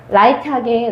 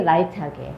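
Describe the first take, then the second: First: 라이트하게 given weight, unhurried; stress on light. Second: 라이트하게 repeated softly, falling off; quiet afterthought on 라이트하게; 라이트하게 murmured low and soft; soft echo. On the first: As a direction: lean on 라이트하게 as the key word. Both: Shown as a demonstration.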